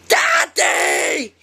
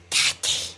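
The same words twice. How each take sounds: First: It is yelled as loud as possible. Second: It is called out softly.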